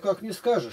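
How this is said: It flows on as an expressive question. It is a rhetorical question that carries the meaning. The speaker calls it right. "тут интонация и голосом можно показать это"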